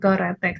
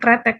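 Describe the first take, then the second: First: A short vowel is heard between k and r. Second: No vowel is heard between k and r. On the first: This is the standard written form. "ketika kita dalam written harusnya memang keretek" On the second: This is the everyday spoken form. "spoken language kita kretek"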